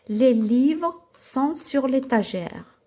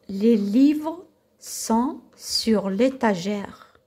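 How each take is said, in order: First: The sentence is read at a faster pace. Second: The sentence is read at a slower pace.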